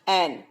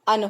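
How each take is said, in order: First: It is said with a full, clear vowel. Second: It is said with a short, reduced vowel. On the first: "strong form में क्या होता है" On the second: "weak form में जो pronunciation होता है वो अन होता है"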